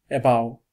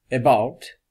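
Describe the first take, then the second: First: The final T sound is dropped. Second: The final T sound is clearly pronounced. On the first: "non pronuncia la T perché la salta" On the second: "non dice about"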